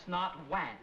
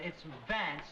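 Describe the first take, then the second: First: "Wance" with a rounded W instead of V; mocking the W error. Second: Vance with a clear V sound, teeth on lip; correct V. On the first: Teacher imitating the student's mistake, "Wance" with a W. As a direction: say "Wance" the way the student wrongly does. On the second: Teacher correcting a student's V, clear V in "Vance". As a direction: say "Vance" with a firm V, not a W. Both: Shown as a demonstration. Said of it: "we've worked several months on those V's and W's".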